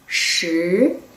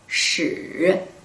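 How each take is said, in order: First: The pitch rises from middle to high. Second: The pitch dips low and then rises. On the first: It means ten. "raising tone could be number ten" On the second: It means history. "third tone, curved tone could be history"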